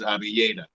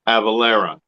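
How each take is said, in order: First: The name is said in its original form. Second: The name is said in a simplified, anglicized form. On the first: This is the name's true pronunciation. "the correct pronunciation is Avieta" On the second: This is an easier form for outsiders to say. "a lot of the uh, European tongues can't handle that, so Avalera"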